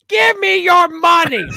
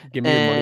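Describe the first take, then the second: First: It is said in a put-on character voice. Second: It is said in a normal speaking voice.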